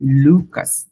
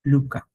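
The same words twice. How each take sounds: First: লুকাস with the final s said; লুকাস, final s sounded clearly; English way. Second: লুকা with the final s dropped; French way. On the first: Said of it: "but French সেটাকে বলবে লুকা". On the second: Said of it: "not লুকাস". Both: Shown as a demonstration.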